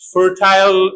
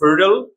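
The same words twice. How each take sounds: First: The last syllable has a full 'eye' vowel. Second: The last syllable is reduced, without 'eye'.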